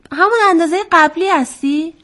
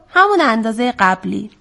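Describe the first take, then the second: First: High, rising question on «همون اندازهٔ قبلی هستی». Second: «همون اندازهٔ قبلی» as a settled reply, falling; answering statement. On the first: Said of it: "وزغ پرسید". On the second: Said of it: "قورباغه گفت". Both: A narrator's reading.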